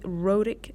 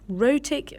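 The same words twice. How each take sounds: First: It is said with an American accent. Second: It is said with a British accent. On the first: "en euh, General American" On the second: "en british"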